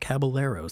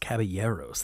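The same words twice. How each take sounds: First: The double L is said as an L sound. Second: The double L is said as a Y sound. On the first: The speaker calls it wrong. "It's not Caballeros" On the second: The speaker calls it right. "That double L in Spanish is ya"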